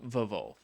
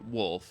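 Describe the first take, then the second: First: The name begins with a V sound. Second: The name begins with a W sound. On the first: This follows the spelling. "he spells it with two V's" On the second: This is the pronunciation the owner prefers. "if you pronounce it the way he wants you to pronounce it"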